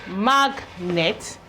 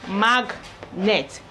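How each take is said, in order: Both takes have the same delivery.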